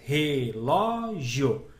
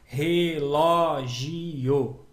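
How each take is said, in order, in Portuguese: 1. O i e o finais formam uma sílaba só. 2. O i e o finais estão separados. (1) "você faz relógio. Então, o io ficou juntinho" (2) "você não faz relógio"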